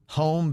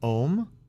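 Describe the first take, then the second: First: The h sound at the start is pronounced. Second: The h sound at the start is dropped.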